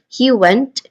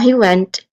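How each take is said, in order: First: The pitch rises at the end. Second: The pitch falls at the end. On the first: The speaker is asking for confirmation. "For rising intonation, we're asking for confirmation. ... So we rise on the word went" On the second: The speaker is stating a fact. "Or in falling intonation, like we're just trying to state a fact"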